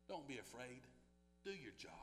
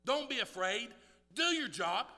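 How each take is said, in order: First: Softer, lower, gentle assurance; quiet reassurance. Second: Louder, higher firm command; firm exhortation. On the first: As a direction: say it softly to each listener. Quiet reassurance before loud repeat. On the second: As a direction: lift it up as a charge to the church. Louder repeat of the assurance. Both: Acted.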